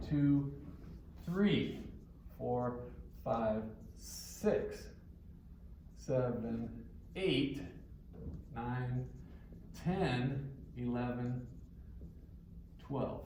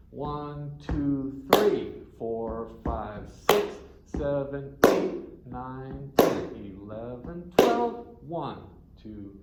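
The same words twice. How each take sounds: First: Said in the usual way. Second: "three", "six", "ten" and "twelve" hit loud, rest lighter; accented flamenco count. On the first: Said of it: "So you might have one". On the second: Shown as a demonstration. Teacher counting flamenco, accents at the back of each group. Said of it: "That's not how it worked in flamenco".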